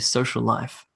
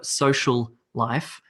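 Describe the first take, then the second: First: The two L sounds merge into one. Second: The two L sounds are pronounced separately. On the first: The speaker calls it right. "we actually just combine it into one" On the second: The speaker calls it wrong. "I don't say sh- social life. It's too difficult"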